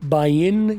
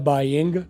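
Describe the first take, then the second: First: The final g sound is dropped. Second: The final g sound is pronounced. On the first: "जी silent कर लो" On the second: "या बोलो"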